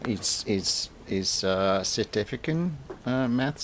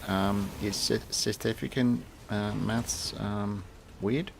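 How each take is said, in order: First: Bad South African accent, pitched up; a clumsy stab at South African. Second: Said in the usual way. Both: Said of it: "sorry for my terrible South African accent".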